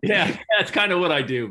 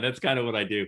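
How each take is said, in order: First: Said through a high laugh; chuckling, amused and loud. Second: Said in the usual way. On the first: Real, not acted. Joking about own messaging skill.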